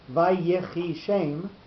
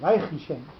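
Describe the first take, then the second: First: The short middle vowel is clearly pronounced. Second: The short middle vowel is slurred over completely. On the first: The speaker calls it right. "the Yud gets uh, maybe thirty percent of the accent" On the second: The speaker calls it wrong. "So you would lose any"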